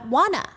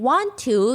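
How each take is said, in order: First: The two words blend into one short word. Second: Both words are said fully and separately. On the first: "you say" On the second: "Instead of saying"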